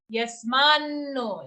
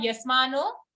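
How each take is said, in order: First: Yasmanno with a long, held double n. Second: Yasmano with one short n; single n. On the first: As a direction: lean slowly on the nn in yasmanno. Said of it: "it's a double n sound". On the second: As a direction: say yasmano lightly, the n not held. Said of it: "it's not yasmano". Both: Shown as a demonstration.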